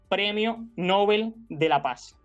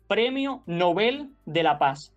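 First: The stress is on the first syllable. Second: The stress is on the last syllable. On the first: The speaker calls it wrong. "y no" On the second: The speaker calls it right. "Lo apropiado sería"

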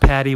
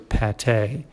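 First: It sounds like the word 'patty'. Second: It sounds like 'pah-tay'. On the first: The speaker calls it wrong. "it's not pronounced patty" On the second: The speaker calls it right. "It's actually pâté"

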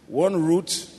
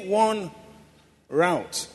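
First: Route is pronounced the British way. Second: Route is pronounced the American way. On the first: "British English now" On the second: "that's how they call it in the U.S"

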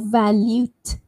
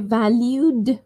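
First: The word ends with a t sound. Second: The word ends with a d sound. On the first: The speaker calls it wrong. "valute with a T" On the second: The speaker calls it right. "valued with a D"

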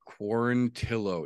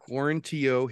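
First: The name is pronounced just as it is written. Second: The name is pronounced differently from its spelling. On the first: The speaker calls it right. "It is pronounced phonetically" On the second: The speaker calls it wrong. "not Quarantillo"

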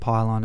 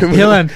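First: The first syllable rhymes with 'pie'. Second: The first syllable rhymes with 'pill'. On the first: The speaker calls it wrong. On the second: The speaker calls it right.

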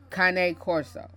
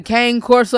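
First: It is said with an Italian pronunciation. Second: It is said with an American pronunciation.

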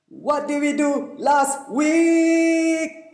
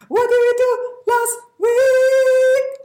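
First: It is said in a normal speaking voice. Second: It is said in a high falsetto voice.

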